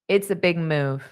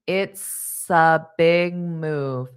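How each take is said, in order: First: The phrase is said quickly and smoothly. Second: The phrase is said slowly and carefully.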